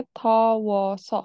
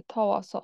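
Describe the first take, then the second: First: থওস spelled out slowly as tho-wos; slow syllable demo. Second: থওস repeated slowly, stressing the o sound; slow repeat demo. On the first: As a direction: say থওস slowly, each sound clear for learners. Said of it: "সেখান থেকে থওস". (থওস ধীরে ধীরে স্পষ্ট করে উচ্চারণ) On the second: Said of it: "ও হবে, থওস". (থওস আবার ধীরে, ও ধ্বনিতে জোর দিয়ে) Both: Shown as a demonstration.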